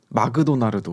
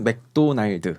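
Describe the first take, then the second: First: It is said with a Japanese accent. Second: It is said with a Korean accent. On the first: "일본에서는 마그도나르도" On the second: "한국에서는 맥도날드 이렇게 합니다"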